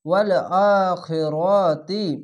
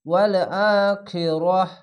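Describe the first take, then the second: First: The final word ends with a 'ti' sound. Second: The final word ends with an 'h' sound. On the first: The reading continues without stopping. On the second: The reader stops at this word.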